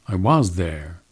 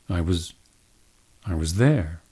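First: The word "was" has a full, unreduced vowel. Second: The word "was" has a reduced schwa vowel. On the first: "is the strong form" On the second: "you would use a schwa in the was"

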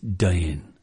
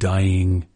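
First: It is said in Elizabethan original pronunciation. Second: It is said in modern English pronunciation. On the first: "it's dying" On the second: "Instead of dying"

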